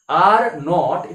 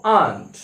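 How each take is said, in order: First: Said in the usual way. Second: "aren't" in one syllable, like ahnt; contracted aren't. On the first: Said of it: "এটাকে আমরা বলবো". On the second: Shown as a demonstration. Teacher demonstrating the contraction, "aren't" said as one syllable. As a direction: squeeze are and not into "aren't". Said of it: "এটাকে আমরা বলবো aren't".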